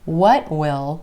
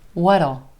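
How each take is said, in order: First: Will is said as a full separate word. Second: Will is contracted, with a flapped T before it. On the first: "What will becomes what'll" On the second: "that T at the end of what becomes a flap T"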